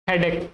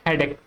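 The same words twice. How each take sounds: The two takes are said the same way.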